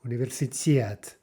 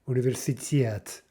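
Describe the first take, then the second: No difference in how they are said.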